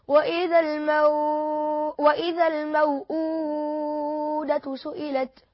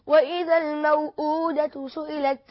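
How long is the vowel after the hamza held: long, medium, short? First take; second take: medium; short. First: The vowel after the hamza is held moderately. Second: The vowel after the hamza is held briefly. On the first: "تاني وجه وهو القصر مع التوسط" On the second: "أول وجه وهو القصر مع القصر"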